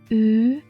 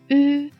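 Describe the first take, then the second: First: The pitch rises from middle to high. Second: The pitch stays high and level.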